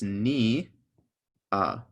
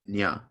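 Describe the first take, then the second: First: It is split into two separate syllables. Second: It is glided together into one syllable. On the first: The letter carries a mark telling it to be said by itself. "if you put a jinkum on either of the letters, it's telling you to say it by itself" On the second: The letter carries no mark. "If there's no jinkim, this would be nya"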